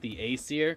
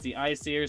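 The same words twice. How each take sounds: First: The name sounds like letter A plus seer. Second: The name does not sound like letter A-seer. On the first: The speaker calls it wrong. "I actually thought you pronounced it the Aesir because I was like, dude, you could have like another line saying like the B Seer and the C Seer" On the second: The speaker calls it right. "but it's the Aesir"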